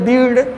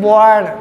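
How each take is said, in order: First: The vowel is a long 'ee' sound. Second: The vowel is a short 'uh' sound. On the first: The speaker calls it wrong. "Sir ये मात्रा मिला दे ... गलत हो जाएगा" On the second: The speaker calls it right. "आर के पहले आई जब आता है बच्चों उसका उच्चारण अ हो जाता है"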